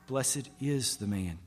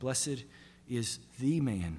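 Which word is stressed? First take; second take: is; the. First: The word 'is' is stressed. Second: The word 'the' is stressed.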